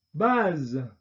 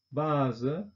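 First: 'base.' said the French way, baz with a released voiced z; French 'base.' with no schwa. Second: 'Base' said the German way, with a final schwa, bazə; German 'Base' with a trailing schwa; German-style. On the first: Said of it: "französischen Aussprache mit Detente". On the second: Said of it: "deutsche Aussprache ... Schwarlaut". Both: Shown as a demonstration.

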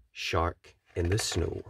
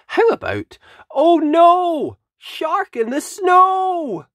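First: Lower, softer title; quiet. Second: High, slow, dramatic title call; excited title. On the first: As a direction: say the title low and ominous. Title repeated low. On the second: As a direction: announce the title like a big reveal. Announcing the book title. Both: Acted.

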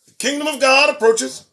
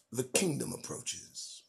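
First: "The kingdom of God approaches" higher and louder, rising on "God"; ringing proclamation. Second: "The kingdom approaches" said low, soft and slow, falling at the end; hushed proclamation. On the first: Preacher warning the congregation, ringing and raised. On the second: Preacher warning the congregation, hushed and slow. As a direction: murmur "The kingdom approaches" like an ominous prophecy. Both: Real, not acted.

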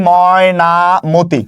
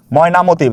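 First: Mainamati drawn out slowly as if writing it; slow, stretched syllables in Mainamati. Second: Said in the usual way. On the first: Shown as a demonstration. Teacher writes and sounds out word. (Mainamati ধীরে টেনে বলা)

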